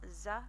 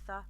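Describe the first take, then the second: First: The consonant is a hissing s sound. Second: The consonant is a lisped th sound. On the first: "you either pronounce it like an S" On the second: "or you pronounce it with a lisp, like I just uh, demonstrated there"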